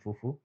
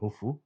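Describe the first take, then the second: First: The word begins with an f sound. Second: The word begins with an h sound. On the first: The speaker calls it right. "you guys say fufa and fufu" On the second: The speaker calls it wrong. "not hoofa and hoofu"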